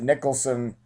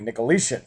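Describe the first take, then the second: First: The name ends with a 'son' sound. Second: The name ends with a 'shin' sound. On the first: The speaker calls it wrong. "I said Nicholson" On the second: The speaker calls it right. "is actually, I hope I pronounced it correctly"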